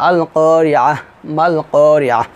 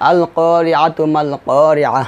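First: Drawn-out vowels, each করিয়াহ closed separately with h; paused recitation. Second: Slow recitation, করিয়াতু runs into মাল with a sounded "tu"; joined recitation. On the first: Teacher breaking the verses apart, paused recitation. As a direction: stop after each করিয়াহ on a soundless-vowel "h", then pause. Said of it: "যদি আমি দুটিতে ওয়াকফ ধরি". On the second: Teacher reading two verses together, joined recitation. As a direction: stretch the long vowels, join করিয়াতু to মাল, end করিয়াহ on h. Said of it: "প্রথম আয়াতে আমি ওয়াকফ ধরবো না". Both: Shown as a demonstration.

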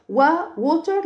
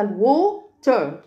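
First: Said in the usual way. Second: "لووتر" broken into long وو, then تر; split into syllables. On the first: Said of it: "وووتر لاني بقسمها". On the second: Shown as a demonstration. Teacher reviews water with pupils, split in syllables. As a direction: sound out "لووتر" in two beats. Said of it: "لاني بقسمها لووتر".

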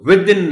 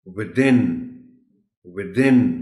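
First: Within stressed on WI; wrong stress. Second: Within with THIN punched; stress on THIN. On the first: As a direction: put the weight on WI in within. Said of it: "नहीं कहेंगे". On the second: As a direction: hit the second syllable of within. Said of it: "TH पर stress है". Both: Shown as a demonstration.

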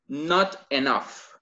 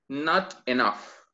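The two takes are said the same way.

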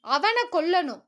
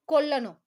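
First: Louder cry of அவனை கொல்லணும், punching அவனை; emotional outburst, mildly acted; overwrought demand. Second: Emotional. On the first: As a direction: let the hate spill over on அவனை. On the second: Acted. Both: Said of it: "உணர்ச்சி வசப்பட்டிருந்தாள்".

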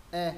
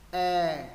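First: Short "E" with lowered jaw; dropped-chin E. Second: Long, louder "E", mouth wide open. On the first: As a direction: drop the chin and say "E" briefly. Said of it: "Chữ E thứ nhất hạ cầm này". (âm "E" ngắn, hạ cằm) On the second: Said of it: "Chữ E thứ hai mở rộng miệng". (âm "E" dài, mở rộng miệng) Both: Shown as a demonstration.

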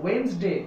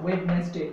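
First: Wednesday as two syllables, "WENS-day"; correct pronunciation. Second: Wednesday in three syllables, "WED-nes-day"; mispronunciation. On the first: Teacher giving the actual pronunciation, correct pronunciation. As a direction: say Wednesday with the first d silent. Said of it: "actual প্রনাউন্সিয়েশনটা হবে". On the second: Teacher showing the wrong way people say it, mispronunciation. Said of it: "not Wednesday". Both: Shown as a demonstration.

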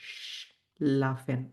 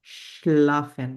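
First: শ্লাফেন drawn out very slowly and softer. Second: শ্লাফেন drawn out very slowly, louder, with a sh at the start; slow model word. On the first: German teacher quietly repeating the word for students, slow. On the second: German teacher slowly modelling the sh sound for students. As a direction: stretch শ্লাফেন syllable by syllable. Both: Shown as a demonstration. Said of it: "এই যে শ এর উচ্চারণ".

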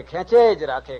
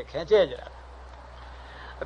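First: Said in the usual way. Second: Drawn-out, very slow breathy whisper. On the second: Shown as a demonstration. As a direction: let the words trail off like endless pulling. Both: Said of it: "કેટલાક છે કે બળદ જેવા છે".

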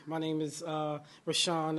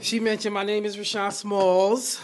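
First: Said in the usual way. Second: Smalls said with a rising lift at the end; stress on Smalls. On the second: Shown as a demonstration. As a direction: lean on the word Smalls so they remember it. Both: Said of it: "to emphasize the word Smalls".

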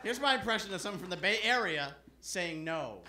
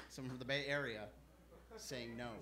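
First: Said in the usual way. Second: Low, soft repeat of the announcement; hushed repeat. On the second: Acted. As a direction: drop low and quiet before the act. Hushed repeat before the impression.

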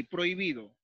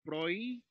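First: Said in the usual way. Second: "Prohibido" broken as prohi-bi-do; split into syllables. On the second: Shown as a demonstration. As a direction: say "Prohibido" in three beats with pauses, PROHI, BI, DO. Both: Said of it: "Lo mismo aquí".

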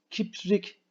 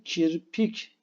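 First: Kiprik said slowly, pitched higher; teacher mocks the wrong Kiprik; wrong form kiprik. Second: Kirpik said plainly with r before p; teacher gives the right kirpik; correct form kirpik. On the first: Teacher to pupils, mocking wrong Kiprik. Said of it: "Kiprik değil". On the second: Teacher to pupils, correct kirpik. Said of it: "kirpik doğrusu". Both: Shown as a demonstration.

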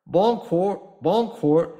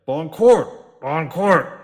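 First: A higher, louder friendly hail; captain hailing the gawking neighbours good-naturedly; good-humoured call. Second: Much louder, furious bellow; captain roaring at the staring neighbours; angry roar. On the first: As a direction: call out cheerily to the windows. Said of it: "he called, at first good-humouredly". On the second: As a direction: roar it at the onlookers. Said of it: "he roared angrily". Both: Acted.

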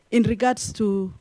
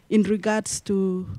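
Both takes have the same delivery.

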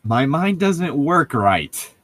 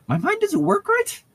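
First: Said in the usual way. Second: "right" pitched up into a high, squeaky question; much higher questioning voice. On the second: Shown as a demonstration. Host rereads the line as Bella's question, high falsetto. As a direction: ask "my mind doesn't work right?" in a high falsetto with a rising end. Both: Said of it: "She asked".

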